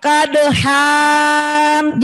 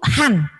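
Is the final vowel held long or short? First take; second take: long; short. First: The final vowel is drawn out long. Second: The final vowel is kept short. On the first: The speaker calls it wrong. "Jangan dibaca panjang kadhan, jangan begitu" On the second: The speaker calls it right. "itu han"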